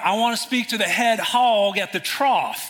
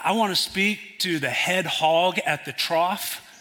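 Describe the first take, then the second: First: It is said a little louder. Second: It is said at normal, quieter volume.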